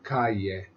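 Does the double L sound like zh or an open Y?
open Y. The double L is said as an open Y. It is the pronunciation used in class. "instead of calle"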